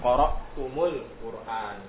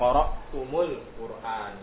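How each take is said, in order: First: The m of tum is followed by a u vowel. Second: The same.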